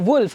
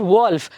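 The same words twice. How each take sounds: First: The vowel is an oo sound as in good. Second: The vowel is an o sound as in golf. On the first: The speaker calls it right. "the sound that we give is double O ಇರೋ ಥರ ನಾವು ಹೇಳಬೇಕಾಗತ್ತೆ" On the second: The speaker calls it wrong. "it's not wolf"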